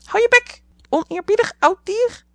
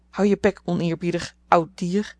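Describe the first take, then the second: First: "Hou je bek" heel hoog en luid gekrijst als papegaai; papegaai na-apend. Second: Licht norse oude tante tegen de papegaai; "Hou je bek" kortaf en bits, in haar eigen lage toon; nors bevel. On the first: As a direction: aap de tante na als schelle papegaai. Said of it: "riep Polly". (papegaai Polly aapt tante na, heel hoog en luid) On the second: Tante snauwt papegaai toe. (tante snauwt papegaai toe, licht gespeeld) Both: A narrator's reading.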